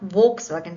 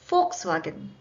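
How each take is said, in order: First: The word begins with a V sound. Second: The word begins with an F sound. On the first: The speaker calls it wrong. "not Volkswagen" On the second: The speaker calls it right. "this needs to be pronounced with F"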